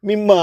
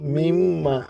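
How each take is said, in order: First: The n merges into a double m. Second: The n is kept before the m. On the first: "மிம்மா ஆகிட்டு" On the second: "மின் மா அஞ்சு தடவை சொல்லுங்க"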